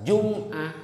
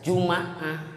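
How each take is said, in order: First: The m is followed by no vowel. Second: The m is followed by an a vowel. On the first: "bisa sukun" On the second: "bisa fathah"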